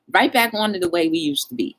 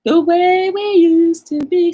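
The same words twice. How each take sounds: First: Said in the usual way. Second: Higher, louder, slow and stretched; a nostalgic sung-out repeat; drawn-out singsong echo. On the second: Real, not acted. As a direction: savor the words like a happy refrain. Repeats phrase, drawn out and raised.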